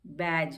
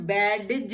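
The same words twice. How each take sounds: First: बैज with a silent d, just baj; right pronunciation. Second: बैडज with the d sounded, bad-j; wrong pronunciation. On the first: Teacher giving the correct reading, बैज with silent d. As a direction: say बैज with no d at all. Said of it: "हम इसको कहते हैं बैज". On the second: Teacher showing the wrong reading, बैडज with a sounded d. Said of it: "ये हम बैडज नहीं पढ़ते हैं". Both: Shown as a demonstration.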